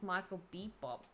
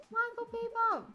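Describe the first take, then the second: First: Said in the usual way. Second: Name yelled high and loud like a game show host; big hyped-up introduction; announcer shout. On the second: Acted. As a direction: belt out the guest's name to the crowd. Host announces guest loudly.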